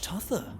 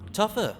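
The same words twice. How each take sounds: First: The middle consonant is a th sound. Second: The middle consonant is an f sound. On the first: The speaker calls it wrong. "I said that with a T H" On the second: The speaker calls it right. "Tougher with an F"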